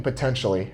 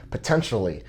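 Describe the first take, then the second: First: Said in the usual way. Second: "potentially" set apart for emphasis; emphatic POTENTIALLY. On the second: Real, not acted. Reviewer qualifying the accusation about hidden dents, emphatic "potentially". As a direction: stress "potentially" as a deliberate caveat. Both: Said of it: "and I emphasize potentially".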